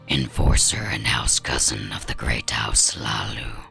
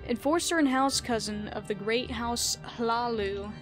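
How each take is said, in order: First: It is read in a Dark Elf character voice. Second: It is read in his normal voice.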